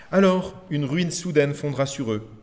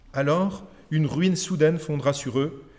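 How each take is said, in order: Both takes have the same delivery.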